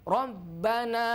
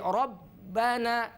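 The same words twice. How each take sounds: No difference in how they are said.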